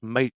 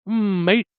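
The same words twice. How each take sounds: First: Said in the usual way. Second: Long humming "Mm" gliding into a high "mate"; dragged M. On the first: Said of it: "So it's not just mate". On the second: Shown as a demonstration. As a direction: stretch the M before "mate", lifting at the end. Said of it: "You have to drag that M".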